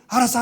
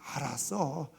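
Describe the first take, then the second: First: It is said quickly and briskly. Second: It is said slowly and drawn out.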